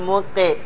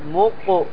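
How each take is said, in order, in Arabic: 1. الصدى بعد القاف يشبه الكسرة (i). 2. الصدى بعد القاف يشبه الضمة (u). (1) "ما تقول موقي" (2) "تقول موقو، كأنك تضمها بسبب أن الميم مضمومة"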